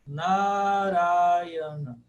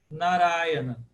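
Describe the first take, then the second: First: Narayana very slow, NA and RA held long; almost intone Narayana with stretched vowels; old Sanskrit long vowels. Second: Narayana with short NA and stressed RA; weight on the second syllable of Narayana; modern Sanskrit stress. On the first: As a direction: draw out NAA-RAA in Narayana. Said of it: "lá no sânscrito fica". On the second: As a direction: say Narayana as na-RAA-ya-na. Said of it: "no sânscrito contemporâneo". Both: Shown as a demonstration.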